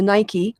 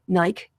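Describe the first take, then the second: First: It is said with an American pronunciation. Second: It is said with a British pronunciation.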